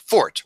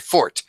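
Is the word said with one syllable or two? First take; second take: one; two. First: It is one syllable ending in a hard T. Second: It is two syllables ending in an ay sound. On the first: The speaker calls it right. "the word is pronounced fort with a hard T" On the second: The speaker calls it wrong. "It's not my fort"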